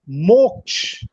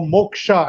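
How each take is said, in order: First: The word has its native, non-English pronunciation. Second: The word has an English-style pronunciation.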